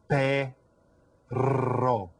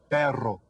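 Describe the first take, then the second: First: The rolled r is strongly exaggerated. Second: The rolled r sounds normal.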